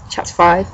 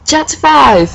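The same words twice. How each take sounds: First: Said in the usual way. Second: High, raised announcer call; dramatic announcement. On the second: Acted. Reader opening the next chapter after the cliffhanger, high dramatic announcement.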